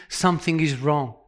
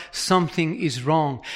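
First: Something is wrong, dropped low and quiet on "something"; weighty drop. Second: Something is wrong, low and quiet with weight on "is"; weighty drop. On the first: Preacher warning the church, low and grave. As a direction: let "something" fall heavy and soft. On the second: Preacher warning the church, leaning on "is". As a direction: press "is", then sink. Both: Shown as a demonstration.

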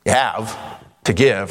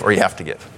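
First: "You have", a pause, "to give"; split phrasing. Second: Said in the usual way. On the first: Shown as a demonstration. Preacher contrasting having with obligation, pause after "have". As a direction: break after "have", keeping "to give" separate. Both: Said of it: "put the emphasis on the syllable".

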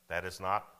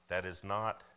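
The two takes are said the same way.

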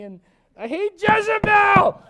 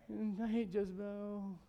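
First: High, drawn-out mock yell; loud, slow, exaggerated tantrum wail; mock outburst. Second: Slow, softer mock moan; drawn-out, mopey mock complaint; mock sulking. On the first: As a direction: explode into a hammed-up shout. Elijah's moping boils over, acted. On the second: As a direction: grumble it slowly in self-pity. Elijah's moping, first take.

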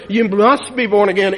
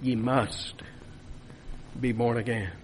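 First: Loud proclamation. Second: Hushed. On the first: Preacher booming the text at his congregation, loud. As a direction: proclaim "You must be born again" loud and forceful. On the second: Quiet hushed repetition of the text. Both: Real, not acted.

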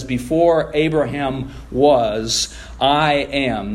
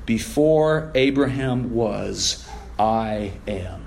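First: "Before" stretched out slowly, "I am" firm; emphatic declaration. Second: Solemn hush. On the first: Preacher stressing Jesus's claim to the congregation, slow and firm. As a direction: lean hard on "Before Abraham was" and land "I am". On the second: Preacher reading Jesus's words to the church, slow and hushed. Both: Shown as a demonstration. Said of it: "Jesus gives an emphatic answer".

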